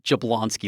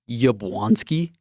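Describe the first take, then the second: First: The name begins with a J sound. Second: The name begins with a Y sound. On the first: The speaker calls it wrong. "I've been calling it Jablonski like an idiot" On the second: The speaker calls it right. "It's Yablonski"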